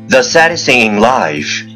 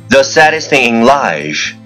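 No difference in how they are said.

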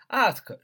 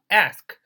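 First: The word is said in a British accent. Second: The word is said in an American accent. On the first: "ask 是英音啊" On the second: "ask 是美音啊"

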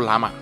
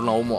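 First: The name sounds like 'lah-mah' with two open vowels. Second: The name sounds like 'lom' with a short vowel. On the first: "俄语的元语，人家就读喇嘛啊" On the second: "咱英语读是Lom 啊"

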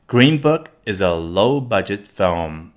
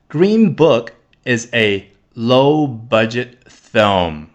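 First: The sentence is said at a faster pace. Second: The sentence is said at a slower pace.

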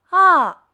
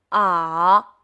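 First: The pitch falls sharply from high to low. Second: The pitch dips down and then rises. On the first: "汽车下坡" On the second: "下坡上坡"

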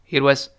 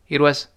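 Both takes have the same delivery.

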